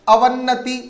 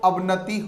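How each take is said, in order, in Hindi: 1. बीच की 'न' ध्वनि दोहरी है। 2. बीच की 'न' ध्वनि एकल है। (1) "अवन्नति न होकर" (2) "अवनति होगा"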